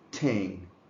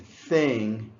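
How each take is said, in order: First: The word begins with a hard t sound. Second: The word begins with a soft th sound. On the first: The speaker calls it wrong. "too far back. This is where you make the sounds t" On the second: The speaker calls it right. "Instead of saying thing"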